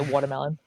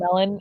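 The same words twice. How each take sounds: First: It is said in a Long Island accent. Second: It is said in a neutral accent.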